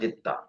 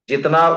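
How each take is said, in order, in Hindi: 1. बीच में लंबा दोहरा t है। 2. बीच में t के बाद n है। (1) "वहां आके चला जाता है" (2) "जितना उर्दू का लफ्ज है"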